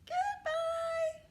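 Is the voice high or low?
high. It is said in a high voice.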